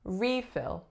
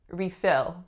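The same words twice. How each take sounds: First: The stress is on the first syllable. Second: The stress is on the second syllable. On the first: It is used as a noun. "As a noun, I would say refill" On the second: It is used as a verb. "this is acting as a verb because the second syllable is receiving stress"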